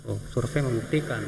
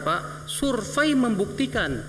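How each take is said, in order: First: Said in the usual way. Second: Slow, drawn-out "survei membuktikan", said higher; emphatic. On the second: Shown as a demonstration. Preacher stressing the survey to the men, slow and emphatic. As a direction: lean on "survei" slowly as a pronouncement.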